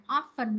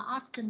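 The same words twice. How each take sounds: First: "often" with no T, like OFF-en; "often" as OFF-fun; silent T. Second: "often" with a clear T, like OFF-tin; "often" as OFF-ten; T pronounced. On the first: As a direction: drop the T from "often". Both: Shown as a demonstration. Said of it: "Chữ này có hai cách đọc".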